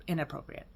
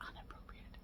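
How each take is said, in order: First: Said in the usual way. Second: Breathy whispered repeat of inappropriate. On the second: Shown as a demonstration. Vlogger to viewers, whispering the word for emphasis. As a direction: drop to a hush on "inappropriate".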